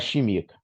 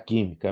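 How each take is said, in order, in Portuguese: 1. A palavra começa com o som 'sh'. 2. A palavra começa com o som 'k'. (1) "não era chimica" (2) "era química mesmo"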